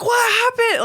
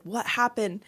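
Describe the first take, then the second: First: High-pitched call from another room; imitated yell. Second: Softer, close-up question; understated concern. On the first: Husband calling to wife from the living room, imitated yell. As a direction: mimic a husband yelling over. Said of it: "I can hear him yelling". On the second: Retold or imitated. Husband finds wife on the floor, understated concern. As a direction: ask it gently, mimicking the husband. Husband now beside her, asking.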